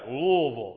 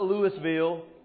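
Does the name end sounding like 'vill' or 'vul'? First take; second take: vul; vill. First: The name ends with a short 'vul' sound. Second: The name ends with a full 'vill' sound. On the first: The speaker calls it right. "I said it right" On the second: The speaker calls it wrong. "not Louisville"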